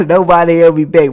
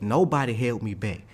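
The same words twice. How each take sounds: First: Loud punchline through real laughter; laughing. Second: Said in the usual way. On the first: Real, not acted. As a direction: crack up while repeating the punchline. Repeats punchline while laughing.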